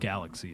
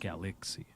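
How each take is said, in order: First: The word is said in a plain, natural way. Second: The word is said with exaggerated, overcareful sounds. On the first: The speaker calls it right. "You're right, it's galaxy" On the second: The speaker calls it wrong.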